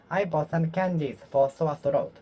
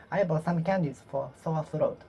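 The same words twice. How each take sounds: The two takes are said the same way.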